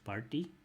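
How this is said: It is said in a Pakistani or Indian accent. "Pakistani Indian English party"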